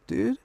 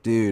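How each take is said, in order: First: Said in an alarmed, urgent tone. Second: Said in a relaxed, parting tone. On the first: It asks if a friend is hiding with a knife. "is my buddy in the closet with a knife?" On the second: It means goodbye. "Dude is goodbye"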